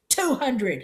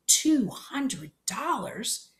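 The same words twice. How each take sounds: First: A raised shout, higher and louder. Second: "Two hundred dollars?" drawn out very slowly, pitched higher; awed disbelief. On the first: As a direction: bark "Two hundred" as a flat demand. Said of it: "he shouted". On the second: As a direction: let the sum sink in, wide-eyed and slow. Boy stunned by the sum. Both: Acted.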